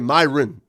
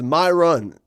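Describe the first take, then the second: First: The two syllables blur and run together. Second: The two syllables are said clearly and separately. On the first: "a lot of people say Myron because it runs together" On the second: "my name is Myron, M Y R O N"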